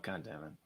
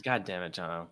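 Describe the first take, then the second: First: Much softer, lower, trailing off; muttered under breath. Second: Softer, falling, half-hearted groan at John; mock exasperation. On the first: Pretend. Host repeats "God damn it" to himself, barely audible. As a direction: say "God damn it" almost to yourself. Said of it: "repeated muttered under breath". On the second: Host grumbles at cohost John with mock exasperation. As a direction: sigh it out in fake annoyance. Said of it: "host's mock exasperation at cohost".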